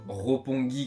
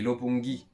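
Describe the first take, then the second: First: The first r is a throaty, guttural r. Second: The first r is a light tap, near l. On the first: The speaker calls it wrong. "on va pas dire ropongi" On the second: The speaker calls it right. "On dit lopongi"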